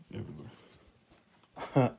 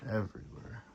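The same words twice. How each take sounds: First: Slow, stretched everywhere; drawn out. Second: Said in the usual way. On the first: Real, not acted. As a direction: drag the word out slowly. Repeats the word, stretched out.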